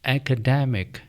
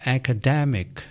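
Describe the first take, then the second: The two takes are said the same way.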